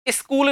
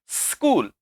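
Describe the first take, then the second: First: It does not begin directly with hissing s. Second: It begins directly with a hissing s. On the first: The speaker calls it wrong. "नहीं" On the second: The speaker calls it right. "Hissing sound के साथ आप शब्दों का प्रयोग करो"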